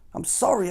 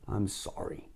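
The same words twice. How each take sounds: First: It is blurted out, sounding heartfelt. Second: It is croaked without meaning it.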